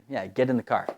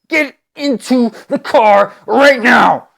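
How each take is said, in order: First: It is said in a calm voice. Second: It is said in an angry voice.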